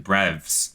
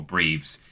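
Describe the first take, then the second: First: "Breves" said as BREVZ; short e in "Breves", one syllable; short-vowel pronunciation. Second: "Breves" said as BREEVZ; long ee in "Breves", one syllable; long-vowel pronunciation. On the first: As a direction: rhyme "Breves" with revs. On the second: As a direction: rhyme "Breves" with sleeves. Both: Shown as a demonstration. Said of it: "or Breves".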